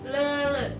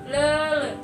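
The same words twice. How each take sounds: First: The vowels are a central schwa sound. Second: The vowels are a central schwa sound.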